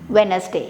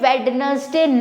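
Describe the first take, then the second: First: The first 'd' sound is left silent. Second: The first 'd' sound is pronounced. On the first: The speaker calls it right. "हमें कहना है वेडनेसडे" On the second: The speaker calls it wrong. "यहाँ पर हमें वेडनेसडे नहीं बोलना है"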